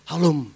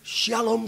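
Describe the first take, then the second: First: The word begins with a plain 'h' sound. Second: The word begins with an 'sh' sound. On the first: The speaker calls it wrong. "Teman saya enggak" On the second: The speaker calls it right. "Harusnya tuh lafalnya mesti contoh nih"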